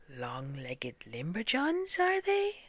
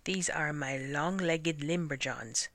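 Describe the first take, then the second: First: Incredulous echo. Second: Said in the usual way. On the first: A narrator's reading. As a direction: stretch the words, sliding far up in disbelief. Servant echoes the silly name doubtfully.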